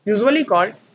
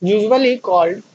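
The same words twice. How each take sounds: First: Said in the usual way. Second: Very slow, drawn out for copying; slow dictation. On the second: Shown as a demonstration. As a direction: stretch out "usually called" so students can write it down. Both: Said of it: "जल्दी से लिखिए".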